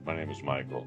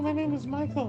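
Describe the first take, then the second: First: The voice is low and deep. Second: The voice is high and light. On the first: The speaker calls it right. "I swear he had a deeper voice" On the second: The speaker calls it wrong. "than going"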